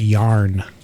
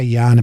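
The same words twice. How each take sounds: First: It is said in an American accent. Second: It is said in an Australian accent.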